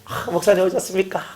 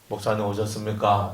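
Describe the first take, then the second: First: The pitch is lifted, sounding warm and pleased. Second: It is said flatly, sounding confrontational.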